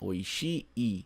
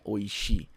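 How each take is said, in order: First: The final i sound is long. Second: The final i sound is short. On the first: The speaker calls it right. "Não esqueça de pronunciar o último i" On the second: The speaker calls it wrong. "Não é oishi"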